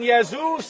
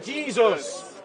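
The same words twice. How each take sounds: First: The word begins with a soft Y sound. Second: The word begins with a strong J sound. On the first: "rather than saying Jesus" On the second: "we pronounce the J with a strong sound"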